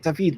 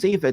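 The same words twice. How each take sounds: First: The name is said with a foreign pronunciation. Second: The name is said the usual English way. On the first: The speaker calls it right. "it's something like David" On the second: The speaker calls it wrong. "it's actually not David"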